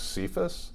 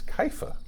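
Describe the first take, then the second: First: The name ends with an s sound. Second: The name ends in a vowel, no s. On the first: The speaker calls it wrong. "I thought it was Cephas" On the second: The speaker calls it right. "Apparently, it's Kepha"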